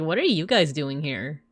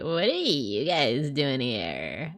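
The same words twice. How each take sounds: First: The voice is smooth and clear. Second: The voice is creaky and croaky. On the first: "As opposed to like" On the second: "when your voice does have like a little bit of like croakiness to it"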